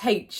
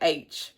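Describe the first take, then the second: First: The letter is said in the speaker's own way. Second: The letter is said in the American way. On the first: The speaker calls it wrong. "apparently I pronounce H incorrectly" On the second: The speaker calls it right. "I'm supposed to say H, according to my friends in America"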